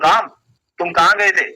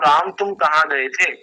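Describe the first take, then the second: First: It is asked angrily and harshly. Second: It is asked gently and affectionately.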